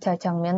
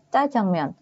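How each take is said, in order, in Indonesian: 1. Konsonan pertama itu polos dan lembut. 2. Konsonan pertama itu tegang dan ditekan. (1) "tuh salah ya" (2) "Yang benar ngomongnya"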